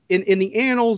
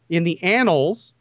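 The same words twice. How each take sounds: First: The word annals is said loosely and unclearly. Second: The word annals is said slowly and distinctly. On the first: The speaker calls it wrong. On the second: The speaker calls it right.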